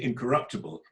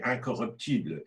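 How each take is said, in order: First: The stress is placed the English way. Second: The stress is placed the French way. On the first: The speaker calls it right. "we say incorruptible" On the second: The speaker calls it wrong. "You're speaking it in the French way"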